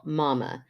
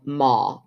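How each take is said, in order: First: 'Mama' said as two full syllables, ma-ma; the kids' two-syllable call 'Mama'; two-syllable Mama. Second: Put-on 'Ma' cut to one short syllable, old-fashioned; a one-syllable prairie 'Ma'; clipped Ma. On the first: Retold or imitated. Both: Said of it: "They do not yell, 'Ma,'".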